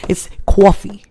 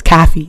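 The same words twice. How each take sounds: First: Put-on Connecticut accent, "coffee" as kwawfee. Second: "Coffee" said with a flat kʰæfi vowel; West Coast coffee. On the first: Correcting her friend, Connecticut "coffee" accent. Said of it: "some West Coast stuff". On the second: Retold or imitated. Imitating her friend's West Coast "Coffee". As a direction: say "Coffee" as kaffee, open a. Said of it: "she says".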